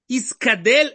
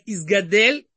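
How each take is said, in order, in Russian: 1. Средний согласный — глухой 'k'. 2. Средний согласный — звонкий 'g'. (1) "Искадель это точно неправильно" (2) "Человек может сказать Изгадель"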